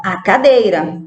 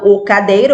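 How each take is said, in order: First: Said in the usual way. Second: "o cadeira" with the wrong article "o". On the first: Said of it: "eu falo a cadeira". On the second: Shown as a demonstration. Teacher showing pupils what not to say, wrong "o" in "o cadeira". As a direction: say "o cadeira" as the example to avoid. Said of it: "Eu não falo o cadeira".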